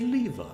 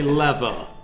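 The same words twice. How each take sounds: First: It is said with a British accent. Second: It is said with an American accent.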